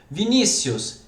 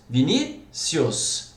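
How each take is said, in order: First: Said in the usual way. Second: "Vinícius" slowly, pausing after stressed NÍ; split into syllables. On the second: Shown as a demonstration. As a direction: break "Vinícius" into Vi-ní, then cius. ("Vinícius" devagar, separando depois do NÍ) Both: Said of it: "Deveria ter acento também".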